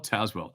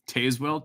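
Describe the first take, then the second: First: Tazewell said TAZ-well, short A, falling and settled; other pronunciation. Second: Tazewell said TAYZ-well, long A, as a rising question; trying a pronunciation. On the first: Streamer settling on the viewer's place name, quietly. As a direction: try Tazewell with a flat short A. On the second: Streamer testing a viewer's place name, questioning. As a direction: test Tazewell with a long A sound. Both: Shown as a demonstration. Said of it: "How do you s-, pronounce that?".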